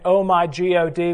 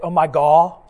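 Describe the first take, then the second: First: The last word ends with a clear d sound. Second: The last word ends without a d sound. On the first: "instead of saying" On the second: "we say, oh my gaw, like G-A-W"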